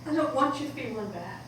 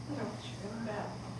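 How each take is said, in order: First: Said in the usual way. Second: Soft quick repeat. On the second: Acted. Daughter repeats it softer.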